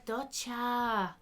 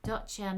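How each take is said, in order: First: "doccia!" with a fast, high native Italian sound. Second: "Doccia" said slowly as "DOT-cha"; Italian word doccia. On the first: A narrator's reading. Neighbour says it natively. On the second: Shown as a demonstration. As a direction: spell out "Doccia" carefully, Italian style. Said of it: "Doccia means shower".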